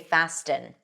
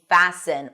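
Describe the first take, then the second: First: The T is pronounced. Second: The T is silent. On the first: The speaker calls it wrong. "we don't say fasten" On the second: The speaker calls it right. "something that we don't see in fasten or listen"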